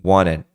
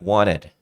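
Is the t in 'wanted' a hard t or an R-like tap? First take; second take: R-like tap; R-like tap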